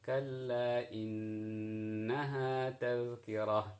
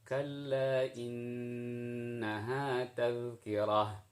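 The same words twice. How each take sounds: The two takes are said the same way.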